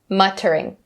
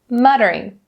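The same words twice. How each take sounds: First: The middle T is a crisp, hard T. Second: The middle T is a soft, quick flap. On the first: The speaker calls it wrong. "Even though it is spelled with the double T, we don't say muttering" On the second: The speaker calls it right. "We say muttering"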